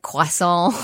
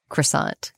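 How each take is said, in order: First: It is said with a French pronunciation. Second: It is said with an American pronunciation.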